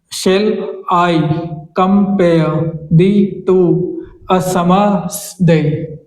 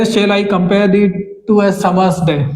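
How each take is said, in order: First: Shall lifted, two leaned on, slow; spoken emphasis. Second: Slow reading. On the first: Teacher shows spoken emphasis on Shall I compare the two, slow. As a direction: lean on two, drawn out. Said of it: "spoken emphasis की बात करेंगे". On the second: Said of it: "अब यहाँ पे spoken emphasis की बात करेंगे". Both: Shown as a demonstration.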